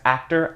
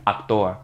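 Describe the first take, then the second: First: It is pronounced the English way. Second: It is pronounced the Spanish way.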